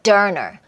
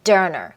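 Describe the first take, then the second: First: The word 'or' is reduced and linked into 'done'. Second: The word 'or' is reduced and linked into 'done'.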